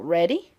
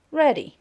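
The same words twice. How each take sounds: First: "ready" rising like a question; rising intonation. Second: "ready" starting high and falling; falling intonation. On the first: Teacher demonstrating final intonation, rising on "ready". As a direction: lift the end of "ready". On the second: Teacher demonstrating final intonation, falling on "ready". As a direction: drop firmly through "ready". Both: Shown as a demonstration. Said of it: "We have final intonation".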